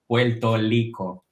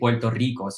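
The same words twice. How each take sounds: First: Both R sounds are said like an L. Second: Only the first R is said like an L. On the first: This is how outsiders imitate the local speech. The speaker calls it wrong. "they don't pronounce the the R's and they imitate our name" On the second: This is how locals actually say it. The speaker calls it right. "the first one we say it as an L, the second one as a normal R"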